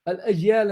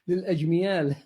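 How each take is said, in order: First: No m sound is inserted mid-word. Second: An extra m sound is inserted mid-word. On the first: The speaker calls it right. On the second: The speaker calls it wrong.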